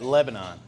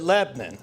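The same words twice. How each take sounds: First: It is said in the usual general pronunciation. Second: It is said in the local regional pronunciation. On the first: This is how outsiders say the name. "You might pronounce that Lebanon" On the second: This is how locals say the name. "those of us who grew up in the Pennsylvania Dutch country, we pronounce it Lebanon"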